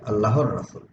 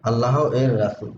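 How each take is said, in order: First: The ending is joined onto the word. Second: The ending is split off as a separate syllable. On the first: The speaker calls it right. "আমরা এইভাবে বলি" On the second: The speaker calls it wrong. "এটাকে ভেঙে তো এভাবে বলা যায় না"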